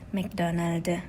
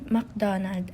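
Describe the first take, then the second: First: Extra e vowel sounds are added. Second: It is said without added vowel sounds.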